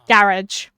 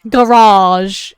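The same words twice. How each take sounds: First: It is said in a British accent. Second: It is said in an American accent.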